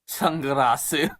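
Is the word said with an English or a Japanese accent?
Japanese. It is said with a Japanese accent.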